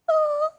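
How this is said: It is said in a sad tone.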